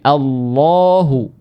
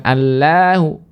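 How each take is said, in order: First: "Allahu" slow, with a heavy lam like "Allohu"; thick lam. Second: "Allahu" with a light lam and open a; thin lam. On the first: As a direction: round and thicken "Allahu" toward o. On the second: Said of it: "bukan Allahu". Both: Shown as a demonstration.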